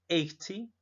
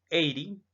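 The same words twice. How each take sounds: First: The t is pronounced as a strong, hard t. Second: The t sounds like a quick r-like flap. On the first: "o un sonido más fuerte" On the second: "aquí suena como una R"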